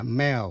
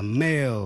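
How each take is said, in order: First: "mail" mispronounced with a short, open E, like "meh"; wrong pronunciation. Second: "mail" with a long AY glide before the L; teacher's correct model of "mail"; correct pronunciation. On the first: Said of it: "Không phải là mail". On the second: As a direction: say "mail" as MAYL. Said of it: "Đọc là mail". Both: Shown as a demonstration.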